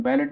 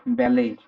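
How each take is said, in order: First: "बैलेट" with the final t spoken; wrong way, t sounded. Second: "बैले" with no t at the end, like bah-lay; silent t. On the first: Teacher shows the wrong way, "बैलेट" with t sounded. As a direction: say "बैलेट" ending hard on t. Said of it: "इसमें टी silent है". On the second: Teacher gives the right way, "बैले" without t. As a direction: end "बैले" on the open vowel, no t. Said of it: "silent है". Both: Shown as a demonstration.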